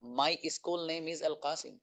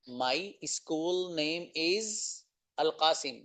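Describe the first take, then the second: First: Said in the usual way. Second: Very slow, each word spaced out; slow model answer. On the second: Shown as a demonstration. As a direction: stretch it out for students to repeat. Repeats answer slowly for learners.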